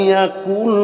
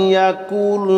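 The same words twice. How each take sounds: Both takes have the same delivery.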